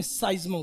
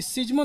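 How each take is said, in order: First: साइज्मो with a long sai diphthong, said low and soft; correct pronunciation. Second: सिज्मो said with a short si as the mistake to avoid; wrong pronunciation. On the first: Teacher correcting the class to say साइज्मो. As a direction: set साइज्मो right, opening on sai. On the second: Teacher showing students the wrong सिज्मो. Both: Shown as a demonstration. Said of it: "सिज्मो नहीं".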